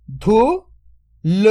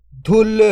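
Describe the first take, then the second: First: "धुल" split into धु, then ल, very slow; drawn-out breakdown of "धुल"; sound by sound. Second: Said in the usual way. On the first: Shown as a demonstration. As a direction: sound out धु ... ल with a long gap. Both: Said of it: "तो मिलके बन जाएगा".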